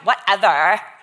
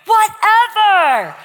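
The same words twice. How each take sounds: First: It is said dismissively, as a shrug. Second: It is said earnestly, as boundless possibility.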